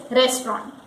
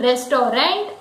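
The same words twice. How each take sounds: First: "restaurant" as RES-tront, two syllables; correct restaurant. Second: "restaurant" as RES-to-rent; three syllables in "restaurant", ending in "rent"; mispronounced restaurant. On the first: Teacher gives the correct word, "restaurant" as RES-tront. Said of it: "the correct pronunciation is restaurant". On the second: Teacher shows a common mistake, "restaurant" as RES-to-rent. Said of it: "Many people say it restaurant". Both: Shown as a demonstration.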